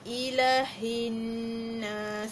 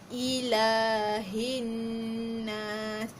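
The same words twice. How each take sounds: First: The vowel after the first 'l' is short. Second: The vowel after the first 'l' is held long. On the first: The speaker calls it wrong. "kebanyakan orang juga baca pendek ni" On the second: The speaker calls it right. "Ila tu dua harakat"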